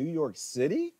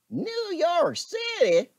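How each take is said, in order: First: Said in the usual way. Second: Mock disbelief.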